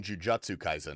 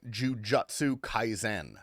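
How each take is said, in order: First: Said in the usual way. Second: "Jujutsu Kaisen" said slowly with a Japanese lilt, not the English way; Japanese-style title. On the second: Shown as a demonstration. Streamer to chat, "Jujutsu Kaisen" with a Japanese lilt. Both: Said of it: "Why are you saying it like that?".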